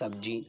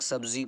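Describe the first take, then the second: First: The middle consonant is a 'j' sound. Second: The middle consonant is a 'z' sound. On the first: The speaker calls it wrong. "ये वाला use कर देते हैं सब्जी। ये बहुत ज़्यादा गलत है" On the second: The speaker calls it right. "सब्ज़ी के अंदर ज़ा है"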